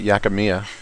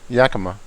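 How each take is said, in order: First: The name ends in an added '-mia' sound. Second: The name ends in a plain '-ma' sound. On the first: The speaker calls it wrong. "I was calling it Yakimia" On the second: The speaker calls it right. "That's what it is"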